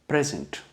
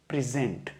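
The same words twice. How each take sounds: First: The stress is on the first syllable. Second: The stress is on the second syllable.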